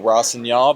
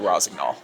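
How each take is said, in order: First: The gn is soft, as in French. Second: The gn is said the American way. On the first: "the French would say a soft G N" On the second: "the American team, we say Rosignol"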